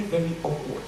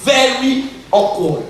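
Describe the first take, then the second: First: Understated aside. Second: "Very awkward" drawn out, loud and high; emphatic repetition. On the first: Speaker admitting discomfort at hugging his brother, understated. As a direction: softly let "very awkward" drop. First take of repeated phrase. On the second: Speaker stressing discomfort to the audience, drawn-out emphasis. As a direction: stretch "Very awkward" slowly and punch it. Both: Real, not acted.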